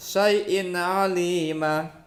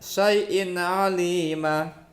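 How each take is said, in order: First: The n sound is short and clear. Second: The same.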